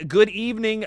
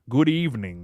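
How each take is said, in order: First: It is said in a normal voice. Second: It is said in a silly put-on voice.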